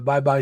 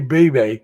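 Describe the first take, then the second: First: The name is said like 'bye-bye'. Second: The name is said like 'bee-bee'. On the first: The speaker calls it right. "but it's pronounced Bye Bye" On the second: The speaker calls it wrong. "I want to say Bebe because that's the way it's spelled"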